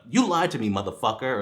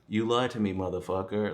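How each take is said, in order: First: It is said with strong angry emotion. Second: It is said flatly with no emotion.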